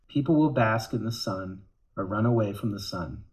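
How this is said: It is read in a sad tone.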